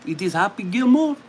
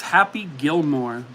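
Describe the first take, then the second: First: Higher, hammed-up French accent. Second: Said in the usual way. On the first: Confirming the movie answer for viewers, mock French accent. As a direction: confirm it as a cartoon French host. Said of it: "I should not have done the accent".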